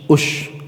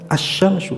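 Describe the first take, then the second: First: The word begins with a u vowel. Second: The word begins with an a vowel. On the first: The speaker calls it wrong. "ada yang membacanya" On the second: The speaker calls it right. "Yang betul yang asyamsu"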